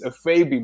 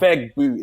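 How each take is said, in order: First: The G sound is left silent in the name. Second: The G sound is pronounced in the name. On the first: This is how it is said in Igbo. The speaker calls it right. "in Igbo the G is silent" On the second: This is how friends mispronounced it. The speaker calls it wrong. "it's not a"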